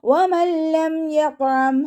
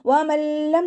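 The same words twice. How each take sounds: First: വമല്ലം chanted high and slow with no nasal hum; correct recitation. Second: വമല്ലം said with a nasal hum, the wrong way; wrong nasal reading. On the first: Teacher modelling the correct വമല്ലം for students. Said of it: "അതുപോലെ ഓതുക". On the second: Teacher showing students the wrong nasal വമല്ലം. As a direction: read വമല്ലം humming through the nose. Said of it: "എന്ന് മണിച്ചിട്ട് ഓതരുത്". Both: Shown as a demonstration.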